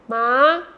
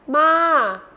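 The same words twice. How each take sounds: First: The pitch stays high throughout. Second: The pitch falls from high to low.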